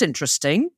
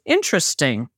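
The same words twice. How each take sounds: First: It is said with lively, enthusiastic intonation. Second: It is said with flat, understated intonation. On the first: The idea is genuinely liked. "in the US we'll say to an idea, if we like it" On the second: The idea is not liked at all; a polite no. "if you say that here in a different intonation"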